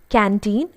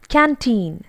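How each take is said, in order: First: The middle consonant is a D sound. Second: The middle consonant is a T sound. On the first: The speaker calls it wrong. "some people use d instead of t... It's not canteen" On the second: The speaker calls it right. "it's canteen. T, t sound comes over here"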